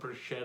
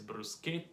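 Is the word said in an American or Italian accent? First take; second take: American; Italian. First: It is said with an American English pronunciation. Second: It is said with an Italian pronunciation. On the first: The speaker calls it wrong. "it's not" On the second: The speaker calls it right.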